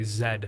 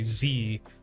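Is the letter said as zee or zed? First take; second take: zed; zee. First: The letter is said as zed, non-American style. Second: The letter is said as zee, American style.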